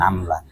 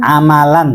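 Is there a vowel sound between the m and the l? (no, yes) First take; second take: no; yes. First: No vowel is heard between the m and l. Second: A vowel is heard between the m and l. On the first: The speaker calls it wrong. "jangan amlan" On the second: The speaker calls it right.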